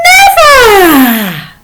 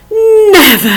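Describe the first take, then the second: First: High, loud drawn-out never; playful stretched defiant never; emphatic never. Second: High, loud, defiant never; playful defiant never; emphatic never. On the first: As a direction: refuse with a laugh. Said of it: "Just repeat them". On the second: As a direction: refuse outright. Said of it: "here's a couple more". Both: Shown as a demonstration.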